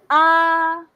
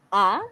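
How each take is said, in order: First: The pitch stays level and the vowel is long. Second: The pitch rises quickly from low to high. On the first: "prolong, it's like you're singing" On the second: "it's from down to up, it's like you're asking"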